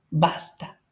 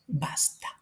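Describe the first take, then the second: First: Said in the usual way. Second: An almost silent, breathy "Basta"; hushed whispered stop. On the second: Shown as a demonstration. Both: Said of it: "fíjense cómo es el tono".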